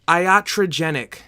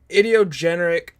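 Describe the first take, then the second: First: The word is pronounced in the standard way. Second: The word is pronounced in a garbled way. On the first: The speaker calls it right. "It's pronounced" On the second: The speaker calls it wrong. "That's not how you pronounce it. I'm sorry for butchering that"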